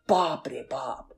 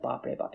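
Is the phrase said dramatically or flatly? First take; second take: dramatically; flatly. First: The phrase is said dramatically, with big expression. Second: The phrase is said flatly, with little expression. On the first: The speaker calls it right. "your face has to go bapre bop" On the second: The speaker calls it wrong. "You can't be like bapre bop"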